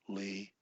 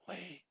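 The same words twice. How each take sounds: First: The word is voiced aloud at a different pitch. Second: The word is whispered without voice. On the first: "in another voice range" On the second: "or whisper"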